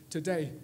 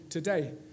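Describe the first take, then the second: First: The first vowel is reduced to a schwa. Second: The same.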